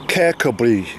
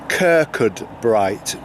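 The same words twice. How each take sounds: First: The name is said unlike its spelling. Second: The name is said just as it is spelled. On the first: This is how locals say it. "a local Scottish guy ... says it's called" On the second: This is how English speakers say it. "the English way of pronouncing this"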